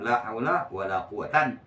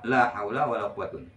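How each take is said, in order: First: The last word ends in an 'an' sound. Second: The last word ends in an 'un' sound. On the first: "Dan boleh nasab"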